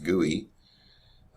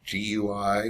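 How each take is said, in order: First: It is said as a single word. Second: It is spelled out letter by letter.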